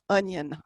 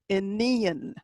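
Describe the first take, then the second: First: The word sounds like the English word onion. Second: The word does not sound like English onion. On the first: The speaker calls it wrong. "It is not onion" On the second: The speaker calls it right. "It is Aenean"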